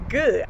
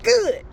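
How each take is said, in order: First: Said in the usual way. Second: High, bright burst of joy; a jubilant single word, sharply high; excited. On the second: Real, not acted. Joy at learning the debt dropped, excited.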